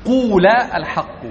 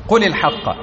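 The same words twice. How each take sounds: First: قول said slowly with a stretched long u, unlike the short قل; teacher contrasting قول with the imperative قل; long-vowel قول. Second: Said in the usual way. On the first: Shown as a demonstration. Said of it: "لكن". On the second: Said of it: "لأن فعل الأمر قل".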